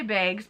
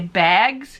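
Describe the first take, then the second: First: It is said in her Wisconsin accent. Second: It is said in a standard accent.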